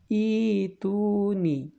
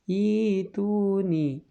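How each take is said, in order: No difference in how they are said.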